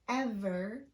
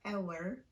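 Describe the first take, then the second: First: The middle consonant is a clear V sound. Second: The middle consonant is a W-like sound. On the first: The speaker calls it right. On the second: The speaker calls it wrong.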